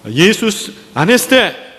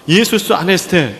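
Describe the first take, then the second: First: The greeting is said with a raised, lifted voice. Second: The greeting is said plainly, without a lift.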